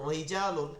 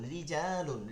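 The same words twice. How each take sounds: First: The r is heavy and thick. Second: The r is light and thin. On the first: The speaker calls it wrong. "এভাবে মোটা পড়া যাবে না" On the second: The speaker calls it right. "এটা বারিক হবে"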